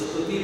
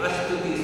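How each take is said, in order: First: The word begins directly with an s sound. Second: An extra a vowel comes before the s. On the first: "तो स्तुति नहीं" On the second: "Uttar Pradesh में स के पहले अ लगाते हैं।"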